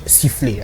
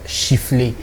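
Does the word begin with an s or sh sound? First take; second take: s; sh. First: The word begins with an s sound. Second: The word begins with a sh sound. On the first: This is the standard way of saying it. The speaker calls it right. "ça se dit siffler" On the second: This is the common local way of saying it. The speaker calls it wrong. "en R D C, on a l'habitude de dire chiffler"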